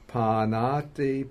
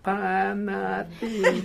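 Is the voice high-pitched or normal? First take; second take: normal; high-pitched. First: It is said in a normal voice. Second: It is said in a high-pitched voice. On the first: "but a normal voice" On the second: "the little monk with the high voice"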